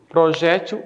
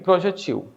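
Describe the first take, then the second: First: The stress falls on the second-to-last syllable. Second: The stress falls on the last syllable. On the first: "Projétil é paroxítono" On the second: "projetil é oxítona"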